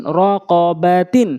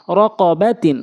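First: Syllables stretched for learners; slow demo. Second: Syllables joined into one word; quick reading. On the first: Teacher repeating so learners can follow, slowly. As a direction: take the word slowly, part by part. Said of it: "slow বলছি এই জন্য". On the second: Teacher showing how it must be read, quickly. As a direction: read it briskly, vowels short. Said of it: "দ্রুতটা উচ্চারণ করতে হবে". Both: Shown as a demonstration.

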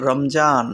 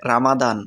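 First: "রমজান" as rom-JAAN, with a j sound; variant pronunciation. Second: "রামাদান" as ra-ma-DAAN, with a d sound; variant pronunciation. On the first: Teacher showing how some people say the month, variant pronunciation. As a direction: say "রমজান" in two syllables with j. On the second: Teacher showing how others say the month, variant pronunciation. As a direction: say "রামাদান" in three open syllables with d. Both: Shown as a demonstration. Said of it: "অনেকেই অনেকভাবে উচ্চারণ করে থাকে".

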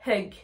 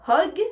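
First: Hug with a French "eu" vowel. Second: Hug said with an o, like hog; louder hug voiced as "hog"; O vowel. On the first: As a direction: keep the vowel of hug an uh, not o. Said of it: "comme si c'était un E et un U". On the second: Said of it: "on va bien prononcer le O". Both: Shown as a demonstration.

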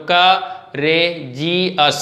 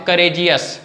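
First: courageous very slow, cut into four separate syllables. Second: Said in the usual way. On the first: Shown as a demonstration. Teacher counting four syllables for students, courageous said piece by piece. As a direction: break courageous apart, pausing after each syllable. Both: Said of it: "इसमें चार syllables दिख रहे हैं".

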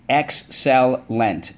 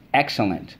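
First: "excellent" stretched slowly as ex-cel-lent; syllable by syllable. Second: Said in the usual way. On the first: Shown as a demonstration. Teacher reviewing words with the class, slowly syllable by syllable. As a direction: tap "excellent" out slowly, each syllable separate. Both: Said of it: "Let's go".

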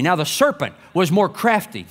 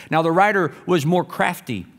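First: Serpent stressed to fix the slip; corrective stress. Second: Said in the usual way. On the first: Real, not acted. Preacher correcting his misread word, stress on serpent. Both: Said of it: "or excuse me".

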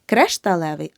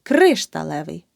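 First: Кришталевий with е after кр; the mistake in кришталевий, е for и; wrong vowel demo. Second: Кришталевий with a clear и after кр; correct vowel demo. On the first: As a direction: say кришталевий wrongly as "kresh-talevyi". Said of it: "Не". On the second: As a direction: say кришталевий as "KRYSH-talevyi", first syllable punched. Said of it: "Запам'ятай". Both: Shown as a demonstration.

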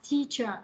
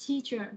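Both takes have the same delivery.

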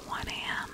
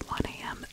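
Both takes have the same delivery.

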